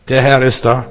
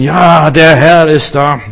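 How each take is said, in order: First: Said in the usual way. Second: Loud, drawn-out imitation of pious enthusiasm; mock pious rapture. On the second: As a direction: hail the little cloud in exaggerated, slow rapture. Spielt fromme Begeisterung über Wölkchen nach. (übertrieben fromm verzückt, laut und gedehnt)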